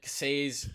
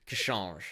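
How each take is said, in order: First: The name ends in a plain s sound. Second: The name ends in a soft zheh sound. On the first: This is a common simplified version. "is what some people have said" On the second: This is the original Polish version. "I believe it's about"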